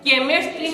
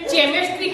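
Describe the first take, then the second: First: The word begins with a 'k' sound. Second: The word begins with a 'ch' sound.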